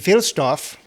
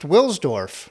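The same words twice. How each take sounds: First: The name begins with a V sound. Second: The name begins with a W sound. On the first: This follows the traditional German pronunciation. "if you go by the traditional German pronunciation, the W is pronounced as a V" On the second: This is how it is likely said in London. "But he's in London, and so it's probably pronounced"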